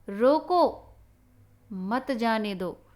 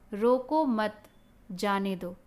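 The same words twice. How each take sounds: First: The pause comes after the word 'roko'. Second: The pause comes after the word 'mat'.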